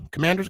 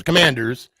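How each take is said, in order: First: "Commanders?" asked with a rising tune; unsure question. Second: "Commanders." stated with a falling tune; Commanders, said down and sure; confident answer. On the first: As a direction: check the team name as a question. Unsure of team name. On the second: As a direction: settle on the name firmly. Confirms team name. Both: Real, not acted.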